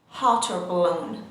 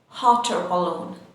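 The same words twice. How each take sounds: The two takes are said the same way.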